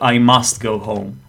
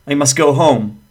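First: The word 'must' has a full, clear vowel. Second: The word 'must' has a reduced schwa vowel. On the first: "instead of" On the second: "the same applies to modal verbs"

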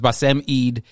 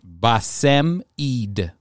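First: The name is said fast. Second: The name is said slowly.

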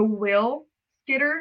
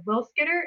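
First: The phrase is said slowly and carefully. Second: The phrase is said at normal conversational speed.

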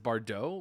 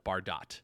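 First: The name is pronounced in a French way. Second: The name is pronounced in an anglicized way. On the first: The speaker calls it right. "I've come to learn that it is Bardot" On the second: The speaker calls it wrong. "I 100% called it Bardot"

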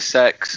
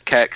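First: The name sounds like the word sex. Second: The name starts with a k sound: keks. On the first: "There's like 50 different pronunciations you hear all the time. It's either sex"

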